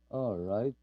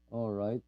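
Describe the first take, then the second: No difference in how they are said.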